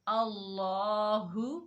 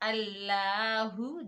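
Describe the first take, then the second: First: The L sound is thick and heavy. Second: The L sound is thin and light. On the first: The speaker calls it right. "मोटा पढ़ना है।" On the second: The speaker calls it wrong. "हमने इसको ऐसे नहीं पढ़ना।"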